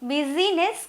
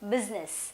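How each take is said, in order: First: The middle i vowel is clearly pronounced. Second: The middle i vowel is left silent. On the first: The speaker calls it wrong. "బిజీనెస్ కాదు" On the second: The speaker calls it right. "ఐ అనేది ... silent"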